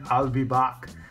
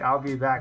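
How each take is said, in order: First: It is said in a Terminator-style impression. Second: It is said in a plain normal voice.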